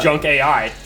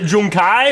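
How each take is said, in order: First: The name ends with separate spoken letters. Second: The name is blended into one word. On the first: "you're right. It is" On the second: "I would pronounce it Junkai"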